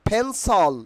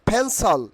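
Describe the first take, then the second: The two takes are said the same way.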